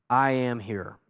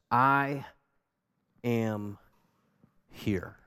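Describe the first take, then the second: First: Said in the usual way. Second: Slow fading whisper. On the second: Acted. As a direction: let "I am here" die away to a whisper. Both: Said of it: "Those two words are underlined".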